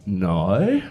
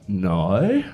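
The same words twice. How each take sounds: First: It is said in an Australian accent. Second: The same.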